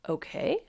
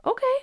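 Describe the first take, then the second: First: Hesitant rising okay; voice of the emotion. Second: Very high, quick okay; calm acceptance acted out. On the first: Acted. Emotion starting to accept, hesitant question. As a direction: ease into a tentative okay. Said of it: "And then the emotion says". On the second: You reassuring the emotion, chirpy acceptance. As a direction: toss back a chirpy okay. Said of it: "And you just say".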